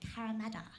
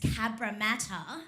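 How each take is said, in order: First: The name is pronounced in a sloppy, reduced way. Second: The name is pronounced carefully and in full. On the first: A non-native speaker's approximation of the name. The speaker calls it wrong. "her pronunciation is a bit shoddy" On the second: The standard local pronunciation of the name. The speaker calls it right. "saying it's Cabramatta"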